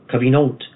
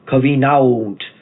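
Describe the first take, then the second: First: The word has its ordinary modern pronunciation. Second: The word has a slower, French-influenced pronunciation. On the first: "instead of covenant" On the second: "I say covenant"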